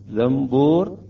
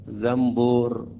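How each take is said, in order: First: An m sound comes before the b. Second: The same.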